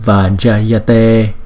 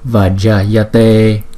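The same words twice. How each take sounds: No difference in how they are said.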